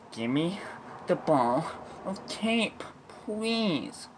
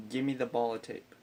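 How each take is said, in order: First: Emphatic, broken-up demand climbing high; exasperated demand. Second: Said in the usual way. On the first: Retold or imitated. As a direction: punch it out piece by piece, rising to a high plea. Principal's escalated demand, acted.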